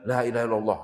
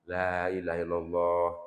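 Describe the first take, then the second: First: It is said forcefully and insistently. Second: It is said gently and calmly. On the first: The dying person is pressured and made dizzy. The speaker calls it wrong. "jangan kenceng-kenceng" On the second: The dying person is guided without being pressured. The speaker calls it right. "Begini, Pak"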